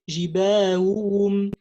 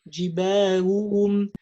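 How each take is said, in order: The two takes are said the same way.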